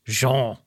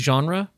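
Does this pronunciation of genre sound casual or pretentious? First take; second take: pretentious; casual. First: Genre is said in a fancy, refined way. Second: Genre is said in a plain, everyday way. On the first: This is the technically correct but showy form. The speaker calls it right. "But that sounds so pretentious" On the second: This is the common but technically incorrect form. The speaker calls it wrong. "that's not really how you're supposed to say that"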